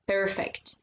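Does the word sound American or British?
American. It is said American style with the R. "not perfect"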